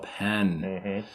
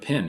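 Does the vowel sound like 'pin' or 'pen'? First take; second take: pen; pin. First: The vowel sounds like the one in 'pen'. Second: The vowel sounds like the one in 'pin'. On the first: It means a pen, in the speaker's own accent. "Oh, a pen" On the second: It means a pen, in the roommate's regional accent. "I don't have a pin. And he's like, "No, a pin to write with.""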